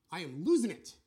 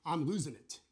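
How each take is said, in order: First: Louder, more desperate repeat; louder distress. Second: Said in the usual way. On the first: Retold or imitated. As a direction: push it out louder in panic. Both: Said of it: "Or they say".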